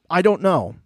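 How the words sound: The words are spoken clearly and distinctly. The person plainly states uncertainty. "it's not even a clear"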